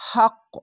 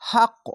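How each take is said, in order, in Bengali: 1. শব্দটি প্রতিধ্বনিত, কলকলা হওয়া q ধ্বনি দিয়ে শেষ হয়। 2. শব্দটি প্রতিধ্বনিত, কলকলা হওয়া q ধ্বনি দিয়ে শেষ হয়।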